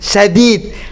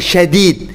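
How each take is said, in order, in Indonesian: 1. Kata ini diawali dengan bunyi 's' biasa. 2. Kata ini diawali dengan bunyi 'sh'. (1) "padahal ini sadid" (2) "dipelesetkan ke syadid. Syadid itu shin pakai tiga titik"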